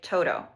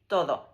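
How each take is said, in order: First: The middle consonant is a hard English d. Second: The middle consonant is a soft voiced th. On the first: "it doesn't sound like todo, which is what we would expect because of how we say the d sound in English" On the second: "it almost sounds like the T H, a voiced T H in the"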